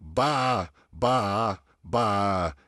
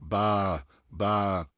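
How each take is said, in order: First: बा with the mouth opened too wide; बा, jaw dropped too far. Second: बा with a straight, even aa; बा, a straight aa with lips normally open; correct straight sound. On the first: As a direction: demo the over-open wrong बा. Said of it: "ऐसे भी नहीं होना चाहिए". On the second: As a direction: model the right बा calmly. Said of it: "पूरा straight sound". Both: Shown as a demonstration.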